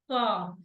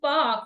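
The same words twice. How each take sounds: First: The pitch falls on the word. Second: The pitch rises on the word. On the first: The speaker calls it right. "What I'm saying is it's park" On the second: The speaker calls it wrong. "I'm not saying park"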